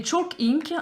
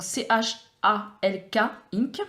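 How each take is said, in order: First: Said in the usual way. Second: "C H A L K" spelled letter by letter, then "ink"; letters of "C H A L K" named clearly, one by one. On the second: Shown as a demonstration. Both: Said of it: "donc C H A L K ink".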